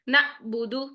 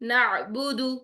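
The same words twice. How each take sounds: First: The middle sound is cut off with a jolt. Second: The middle sound flows smoothly without a stop. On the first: The speaker calls it wrong. "झटके से आवाज बंद होती" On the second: The speaker calls it right. "आइन आ गया यहां पर साकिन"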